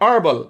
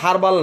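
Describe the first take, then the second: First: The word starts with a vowel sound. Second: The word starts with an h sound. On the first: The speaker calls it right. "শব্দটা হচ্ছে আরবাল" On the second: The speaker calls it wrong. "শব্দটা আসলে হারবাল না"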